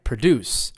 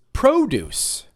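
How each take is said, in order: First: Pruh-DUCE, weak first syllable; second-syllable stress. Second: Slow PRO-duce with a long "oh"; first-syllable stress. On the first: Teacher quizzes students on the verb, pro-DUCE. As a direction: lean on DUCE in "Produce". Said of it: "second syllable for verbs". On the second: Teacher reveals another word, PRO-duce stressed up front. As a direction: hit the PRO in "produce". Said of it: "it's stressed on the first syllable". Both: Shown as a demonstration.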